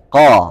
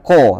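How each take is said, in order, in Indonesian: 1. Vokalnya bunyi a yang tebal, tidak dibulatkan. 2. Vokalnya bunyi o yang dibulatkan. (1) "fathah yang ditebalkan" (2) "bukan bunyi o, bukan ko"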